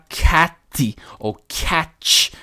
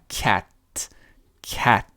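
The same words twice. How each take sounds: First: CAT as "catchy-tee" or "catch", overdone ending; wrong Brazilian-style CAT ending; wrong final T. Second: CAT ending on a crisp bare T; careful English CAT; clean final T. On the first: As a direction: exaggerate CAT with an added ee or CH. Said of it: "a gente não vai falar". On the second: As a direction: say CAT with no vowel or CH after the T. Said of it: "Com aquele T no final". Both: Shown as a demonstration.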